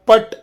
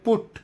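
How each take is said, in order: First: The vowel is an open unrounded sound. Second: The vowel is a rounded u sound. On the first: The speaker calls it wrong. "ಕುಟ್ ಅಥವಾ ಪಟ್ ಅಲ್ಲ" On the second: The speaker calls it right. "ಪಿ ಯು ಟಿ ಅಂದರೆ ಪುಟ್"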